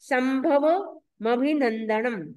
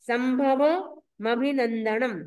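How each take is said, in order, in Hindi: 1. 'm' दूसरे शब्द की शुरुआत में जाता है। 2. 'm' दूसरे शब्द की शुरुआत में जाता है।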